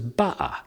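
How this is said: The middle consonant is a glottal stop.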